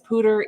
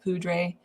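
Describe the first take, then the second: First: The word is said in its local way. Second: The word is said the way it looks. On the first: The speaker calls it right. "but it really is poudre" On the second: The speaker calls it wrong. "It looks like poudre. Um, sometimes podcasts say it that way"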